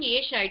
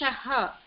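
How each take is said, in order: First: The word ends without a breathy echo. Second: The word ends with a breathy echoed 'ha'. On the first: The speaker calls it wrong. "you are saying Esha" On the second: The speaker calls it right. "Visarga, it is Eshaha"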